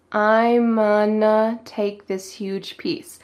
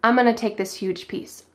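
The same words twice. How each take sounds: First: Very slow, stretched "I'm-unna"; slow-motion "gonna" said as "unna"; slow reduced demo. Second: "gonna" said as "unna", run into "I'm"; quick connected "I'm-unna"; reduced, G dropped. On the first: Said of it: "He cuts off the G and says". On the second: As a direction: drop the G of "gonna" at natural speed. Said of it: "He cuts off the G". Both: Shown as a demonstration.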